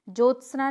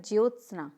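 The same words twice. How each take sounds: First: ज्योत्सना as jot-snaa, no y; incorrect pronunciation. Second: ज्योत्सना as jyot-snaa; correct pronunciation. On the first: Teacher showing a mistake, ज्योत्सना starting "jo". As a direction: drop the y from ज्योत्सना. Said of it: "नहीं होता". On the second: Teacher answering, ज्योत्सना with the y sounded. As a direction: glide through "jyo" in ज्योत्सना. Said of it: "क्या होता है?". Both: Shown as a demonstration.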